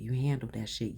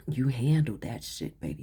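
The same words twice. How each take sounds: First: Said in the usual way. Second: Loud, punchy and proud; emphatic praise. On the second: Real, not acted. Reader cheering the client on, loud and proud. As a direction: hammer it home with pride.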